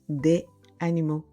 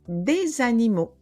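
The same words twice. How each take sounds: First: Des and animaux are said with no linking sound. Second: A z sound links des to animaux. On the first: The speaker calls it wrong. "et pas" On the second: The speaker calls it right. "il faut faire la liaison. Alors, on dira"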